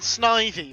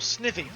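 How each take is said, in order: First: The name rhymes with 'ivy'. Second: The name does not rhyme with 'ivy'. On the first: This is how the speaker has always said it. "I've always gone Snivy because, um, Ivy" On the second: Other people say it this way. "as some people call him"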